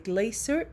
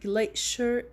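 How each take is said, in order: First: The word is said in a British accent. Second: The word is said in an American accent. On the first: "glacier in British" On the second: "glacier in American"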